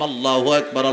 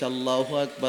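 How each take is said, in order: First: It is said loudly and boldly. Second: It is said softly and timidly. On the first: The speaker has gained confidence. The speaker calls it right. "আমি জোরে বলে ফেললাম" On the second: The speaker is afraid. The speaker calls it wrong. "প্রথমবার ভয়ে ভয়ে আসতে বলছি"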